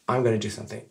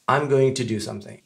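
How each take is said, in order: First: Going to is reduced to gonna. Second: Going to is said in full. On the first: "on peut effectivement prononcer I'm gonna do something" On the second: "on va s'en tenir à I'm going to"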